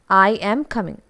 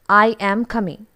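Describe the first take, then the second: No difference in how they are said.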